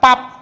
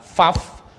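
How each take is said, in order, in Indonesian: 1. Kata itu diucapkan dengan bunyi p. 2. Kata itu diucapkan dengan bunyi f. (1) "Jangan baca Pap. Eta teh orang Sunda" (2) "Anda boleh baca Faf"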